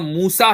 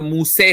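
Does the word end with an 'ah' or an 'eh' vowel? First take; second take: ah; eh. First: The final vowel is an open 'ah' sound. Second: The final vowel is a fronted 'eh' sound. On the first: "एक जगह मूसा है" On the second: "दूसरी किरात के अंदर मूसे है"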